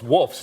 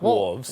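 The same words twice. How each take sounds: First: The word ends with an f sound before s. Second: The word ends with a v sound before s. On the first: The speaker calls it right. "So it's" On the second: The speaker calls it wrong.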